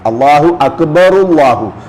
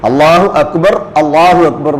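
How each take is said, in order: First: 'Akbar' runs straight on into 'Allahu' with 'u'. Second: There is a stop after the first 'Akbar'. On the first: "അവസാനത്തെ ആ ദമ്മ് ചേർത്തിയാണ് പറയാം" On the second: "എന്നല്ല"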